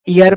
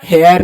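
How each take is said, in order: First: The word begins with a vowel, no h sound. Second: The word begins with an audible h sound. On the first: The speaker calls it right. "एच silent होता है" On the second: The speaker calls it wrong. "इसको हेयर नहीं"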